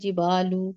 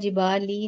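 First: The word ends with an 'oo' vowel. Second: The word ends with an 'ee' vowel. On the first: The speaker calls it right. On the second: The speaker calls it wrong. "जिबाली नहीं है"

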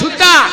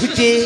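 First: The word ends in an open a vowel. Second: The word ends in a front e vowel. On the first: This is how people in Nadia say it. "নদিয়াতে বললে সুতা" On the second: This is how people in Murshidabad say it. "আর এই মুর্শিদাবাদে সুতে"

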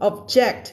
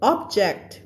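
First: The stress is on the second syllable. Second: The stress is on the first syllable. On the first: It is a verb meaning to oppose. "object เป็น verb" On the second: It is a noun meaning a thing. "object เป็น noun"

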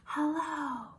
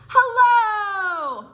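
First: It is said very quietly. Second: It is said very loudly.

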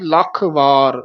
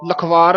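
First: The two words are said with a break between. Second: The two words are run together as one. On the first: The speaker calls it right. "ਵਾਰ ਵੱਖਰਾ ਬੋਲਣਾ ਹੈ" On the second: The speaker calls it wrong. "ਲਖਵਾਰ ਇਕੱਠਾ ਨਹੀਂ ਕਹਿਣਾ"

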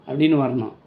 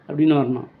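The two takes are said the same way.

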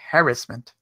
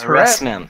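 First: It is said the Canadian or British way. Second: It is said the American way.

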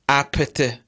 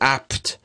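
First: The p is released with an audible burst. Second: The p is held without an audible release. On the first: The speaker calls it wrong. "I won't say apte" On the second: The speaker calls it right. "If I want to remove this part which is unexploded, I should say apt"

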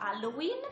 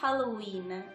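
First: The initial H is weak, without emphasis. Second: The initial H is strong and emphasized. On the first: The speaker calls it wrong. "non si pronuncia Halloween" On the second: The speaker calls it right. "enfasi sulla H iniziale e sulla finale della parola"

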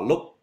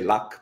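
First: It sounds different from the English word luck. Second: It sounds like the English word luck. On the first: The speaker calls it right. "It's ba luc" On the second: The speaker calls it wrong. "some people say luck, but it's not luck"

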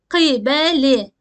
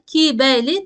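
First: It starts with a deep, back k sound. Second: It starts with a thin, front k sound. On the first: The speaker calls it right. "Kaf harfimiz kalın seslidir" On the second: The speaker calls it wrong. "gıbeli ya da kibeli değil"

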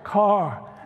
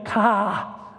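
First: It is said in a Texan accent with r. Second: It is said in a Boston accent without r.

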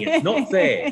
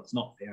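First: The phrase is said forcefully and with feeling. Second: The phrase is said quietly and weakly. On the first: The speaker calls it right. "say it with meaning" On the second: The speaker calls it wrong. "say quietly"

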